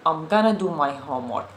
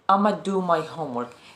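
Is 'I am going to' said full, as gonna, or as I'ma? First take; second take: gonna; I'ma. First: 'I am going to' is contracted to 'I'm gonna'. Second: 'I am going to' is squeezed into 'I'ma'. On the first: "What native speakers say" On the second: "a very, very contracted version of it"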